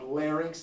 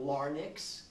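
First: The sounds follow the spelled order, ending in 'rinks'. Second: The sounds are swapped round, ending in 'nix'. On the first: The speaker calls it right. "it is properly called larynx" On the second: The speaker calls it wrong. "not larynx. The order of the letters is larynx"

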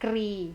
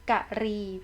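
First: The word is said as one syllable. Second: The word is said as two syllables. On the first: It is short for a verb used in poetry. "แบบที่หนึ่งกรีนะคะ" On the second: It means elephant. "อ่านว่ากะรี"

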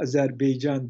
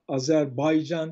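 First: The middle syllable is 'bey' with an e vowel. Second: The middle syllable is 'bay' with an a vowel. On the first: The speaker calls it wrong. "adı yanlış telaffuz ediyor" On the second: The speaker calls it right. "Baycan'ı vurgulayarak söylediniz"

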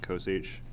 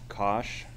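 First: The h is spoken as a separate letter. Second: The word is said without a separate letter h. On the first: "I'll probably just say sine h and cos h" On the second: "and cosh"

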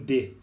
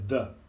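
First: It starts with a plain d sound. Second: It starts with a soft th sound. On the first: The speaker calls it wrong. "O brasileiro acaba falando de" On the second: The speaker calls it right. "é the, guys, essa pronúncia, the"

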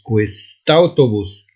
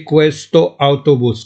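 First: The two words run together, dropping the vowel. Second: The two words are separate, keeping the vowel. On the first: The speaker calls it right. "وكتقرا كويستاوتوبوس" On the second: The speaker calls it wrong. "ماشي كويستو اوتوبوس"

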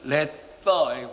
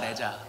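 First: The middle consonant is a TH sound. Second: The middle consonant is a J-like sound.

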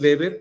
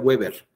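First: The name is pronounced the German way. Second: The name is pronounced the English way. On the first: The name belongs to a German author. "la pronunciación del apellido Weber es así, Weber, porque es alemán" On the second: The name belongs to an English-speaking author. "Si fuera inglés o norteamericano sería Weber"

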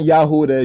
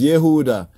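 First: The first vowel sounds like 'a'. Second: The first vowel sounds like 'e'. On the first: The speaker calls it wrong. "It's not Yahuda" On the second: The speaker calls it right. "it's Yehuda"

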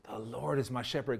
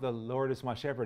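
First: It is said in a firm, urgent tone. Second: It is said in a soft, solemn tone. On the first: The speaker urgently needs God's help right now. The speaker calls it right. "It's more declarative" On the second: It is a ritual religious recitation. The speaker calls it wrong. "he's not saying it in a religious, oh"

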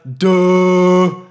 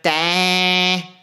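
First: It sounds full and deep, larynx lowered. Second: It sounds thin and cut off, larynx raised.

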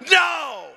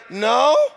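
First: It is said firmly, like an exclamation. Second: It is said unsurely, like a question.

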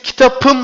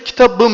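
First: The consonant before the suffix is a p. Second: The consonant before the suffix is a b. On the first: The speaker calls it wrong. "P ne yapar diyor? B'ye dönüştürüyor" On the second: The speaker calls it right. "Tabii ki kitabım diyoruz"

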